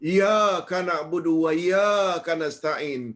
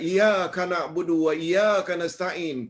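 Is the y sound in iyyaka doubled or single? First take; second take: doubled; single. First: The y sound in iyyaka is doubled. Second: The y sound in iyyaka is single. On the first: Only you we worship and from you we seek help. The speaker calls it right. "ia mestilah ada sabdu, tasydid" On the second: The sunlight we worship and from the sunlight we seek help. The speaker calls it wrong. "iya tanpa sabdu, iya itu cahaya matahari"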